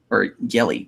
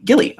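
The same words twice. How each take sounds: First: Said in the usual way. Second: Gilly sung out high and bright; playful high nickname. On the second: Shown as a demonstration. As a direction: lift Gilly up high and cute. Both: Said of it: "I'm gonna call you Guile".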